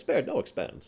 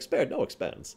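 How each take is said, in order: First: It is said cheerfully and lightly. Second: The same.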